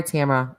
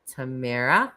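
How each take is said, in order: First: "Tamara" said carefully as TAM-uh-ruh; the corrected "Tamara" with a short a in the first syllable; "Tamara" fixed to TAM-uh-ruh, apologetic; corrected name. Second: "Tamara" said as tuh-MAIR-uh, rising; the slipped "Tamara" with the stress on the second syllable; "Tamara" mispronounced as tuh-MAIR-uh; wrong name. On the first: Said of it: "I'm sorry". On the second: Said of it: "Why do I keep saying Tamara?". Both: Shown as a demonstration.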